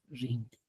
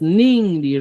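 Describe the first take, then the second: First: "ringri" starting with an r; correct form. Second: "ningri" starting with an n; nonstandard variant. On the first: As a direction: say "ringri" with initial r sound. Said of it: "la correcta es ringri". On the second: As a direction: say "ningri" with initial n sound. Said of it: "Si hasta el momento escribías". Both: Shown as a demonstration.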